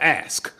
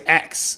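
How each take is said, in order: First: The word is pronounced like 'ask'. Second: The word is pronounced like 'ax'. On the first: This is how critics expect it to be said. "instead of ask" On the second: This is how the speaker naturally talks. "I say ax"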